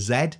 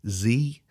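First: The letter is said the British way, zed. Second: The letter is said the American way, zee.

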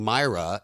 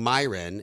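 First: The name is said like Myra. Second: The name is said like Myron. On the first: "I've been saying her name wrong" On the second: "I've been saying her name wrong"

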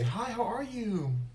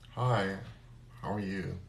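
First: It is said in a sweet, warm tone. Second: It is said in a cold, hurtful tone.

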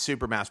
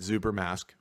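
First: The name is said in a plain English way. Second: The name is said so it sounds German. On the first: This is the intended pronunciation. "I guess it's supposed to be pronounced Super Mask" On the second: It makes the name sound like Ubermensch. "I will be pronouncing it Super Mask, which makes it sound very German"

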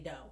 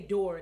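First: It is said in a Southern accent, r dropped. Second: It is said in the speaker's own accent.

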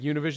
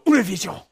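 First: It is said with a plain American accent. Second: It is said with an exaggerated Spanish accent.

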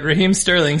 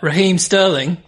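First: It is said in his normal American accent. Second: It is said in a put-on British accent.

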